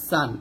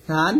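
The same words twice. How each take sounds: First: সান with a clear, sharp s; whistling s opening on সান; hissing san. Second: সান as a thin "th" sound; tongue to upper teeth, lisp সান; lisped than. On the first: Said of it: "এটা হবে সান". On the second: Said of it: "এটা হচ্ছে". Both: Shown as a demonstration.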